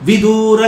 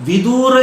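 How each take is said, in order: No difference in how they are said.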